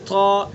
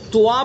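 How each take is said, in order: First: A plain long 'aa' vowel follows the t. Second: An 'oo' glides into 'aa' after the t. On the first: The speaker calls it right. "बिल्कुल अलिफ के साथ" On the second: The speaker calls it wrong. "वाव के साथ ... गलत"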